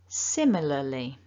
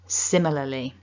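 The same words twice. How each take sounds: First: The word is said slowly. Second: The word is said quickly. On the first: "slowly at first" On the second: "a bit quicker"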